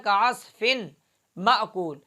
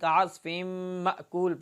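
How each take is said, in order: First: The n is pronounced separately before the m. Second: The n is merged into a nasalized doubled m. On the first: The speaker calls it wrong. "अब यहाँ था कास्फिन मअकूल" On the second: The speaker calls it right. "तनवीन को मीम के अंदर इदगाम करके गुन्ने के साथ"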